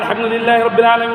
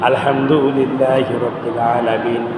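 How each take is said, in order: First: It is recited quickly and without pauses. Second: It is recited slowly with a pause after. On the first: The speaker calls it wrong. "এভাবে তাড়াহুড়া করে পড়েন" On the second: The speaker calls it right. "আপনাকে পড়তে হবে ধীরে ধীরে, থেমে থেমে"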